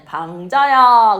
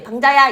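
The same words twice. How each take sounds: First: The name is called slowly and drawn out. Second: The name is called quickly and short. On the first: The speaker calls it right. "이렇게 길게 불러서" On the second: The speaker calls it wrong. "이게 아니라"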